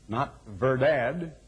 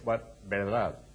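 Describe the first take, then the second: First: It begins with a v sound. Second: It begins with a b sound. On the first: The speaker calls it wrong. "as people would read it in English" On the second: The speaker calls it right. "they pronounce it with a B"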